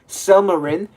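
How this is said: The name is said with an American pronunciation.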